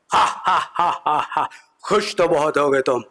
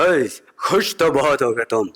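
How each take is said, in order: First: Mock villain cackle into the taunt; Gabbar laugh imitation. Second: Slow, drawn-out Gabbar menace; Gabbar Singh imitation. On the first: Gabbar laughs at the comedian, hammed-up villain cackle. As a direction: ham up Gabbar's laugh and sneer. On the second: Gabbar mocks the comedian, slow hammed-up menace. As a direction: ham up the Sholay villain. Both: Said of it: "Gabbar Singh बैठे हुए थे".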